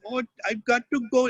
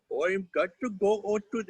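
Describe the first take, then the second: First: High-pitched, exaggerated Indian accent; Indian dialect. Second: Exaggerated Indian accent, a notch down from cartoon-high; same put-on Indian accent in a somewhat deeper character voice; lower-voiced Indian dialect. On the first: Child voice actor showing off an Indian dialect in the booth, high exaggerated Indian accent. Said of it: "can do an Indian dialect". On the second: Child voice actor obeying a director's request, Indian dialect in lower voice. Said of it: "same dialect but in a lower voice".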